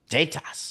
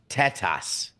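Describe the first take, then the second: First: The first syllable sounds like 'tater'. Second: The first syllable sounds like 'Tesla'. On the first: The speaker calls it wrong. "It sounds like you're saying tater tots" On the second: The speaker calls it right. "There you go"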